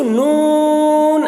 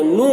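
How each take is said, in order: First: نون stretched, higher, with the final n sounded; chanted نون, clear n at the end; correct Noon. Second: نو with the final n dropped; wrong missing n. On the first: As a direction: draw out NOOON and close on n. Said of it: "ایسے بولیں گے". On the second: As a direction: show the mistake, NOO left open. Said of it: "کچھ لوگ نو بولتے ہیں". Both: Shown as a demonstration.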